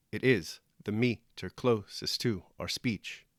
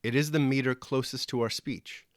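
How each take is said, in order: First: "It is the meter closest to our speech" slowly, broken into da-dum pairs; iambic beat. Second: Said in the usual way. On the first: Shown as a demonstration. Teacher scans the line for listeners, "It is the meter closest to our speech" in five slow heartbeats. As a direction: scan "It is the meter closest to our speech" with stress on every second syllable. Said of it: "a rhythm like five heartbeats". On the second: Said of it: "did you hear that?".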